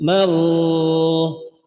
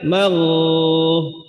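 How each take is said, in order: Both takes have the same delivery.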